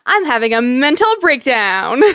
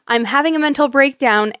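First: It is said in a light, sparkly, playful tone. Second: It is said in a plain, serious tone. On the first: The distress is made light and cute. "you read it like" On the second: The distress is meant sincerely. "there's a huge difference between"

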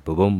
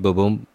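First: The beat is quick and hurried. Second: The beat is slow and relaxed. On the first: The person is stressed. "you start hearing the heart start being faster" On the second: The person is calm. "Normal, just relaxed heartbeat"

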